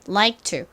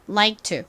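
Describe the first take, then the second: The two takes are said the same way.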